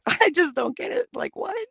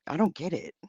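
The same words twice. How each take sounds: First: Higher, laughing through the words. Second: Said in the usual way. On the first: Real, not acted. Streamer laughing at a confusing chat question. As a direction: giggle out the whole line. Laughs while repeating herself.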